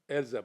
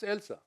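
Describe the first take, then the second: First: The middle consonant is a buzzing z sound. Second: The middle consonant is a hissing s sound. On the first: This is how the name is said locally. "you say in Israel Elza" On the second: This is how the name is properly said. "but it's Elsa"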